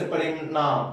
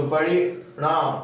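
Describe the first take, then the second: First: Said in the usual way. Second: परिणाम slowly, the ण curled back towards a flapped ड़; retroflex ṇ. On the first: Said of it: "न का उच्चारण कहीं कहीं अड़ की तरह होता है". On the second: Shown as a demonstration. Teacher showing the ड़-like sound of ण, परिणाम said slowly with retroflex ण. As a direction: draw out परिणाम with a retroflex ण, close to ड़. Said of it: "ट्वर्गी न का उच्चारण कहीं कहीं अड़ की तरह होता है".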